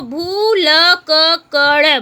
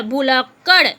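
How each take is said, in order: First: भूलक्कड़ drawn out syllable by syllable, very slow; sounded out slowly. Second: Said in the usual way. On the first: Shown as a demonstration. Teacher sounding out a hard word for pupils, very slow. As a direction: spell out भूलक्कड़ slowly so every sound is clear. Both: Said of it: "पहला है शुद्ध उच्चारण कीजिए".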